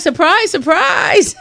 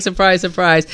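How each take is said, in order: First: High-pitched excited squeal; squealed surprise. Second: Said in the usual way. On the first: Retold or imitated. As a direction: shriek it with delight, way up high. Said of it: "I'm like". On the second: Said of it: "they're like".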